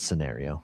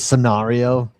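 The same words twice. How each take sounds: First: The word is said the American way. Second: The word is said the British way. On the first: The speaker calls it right. "I think it's scenario" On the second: The speaker calls it wrong. "you're a snob... Or you're British"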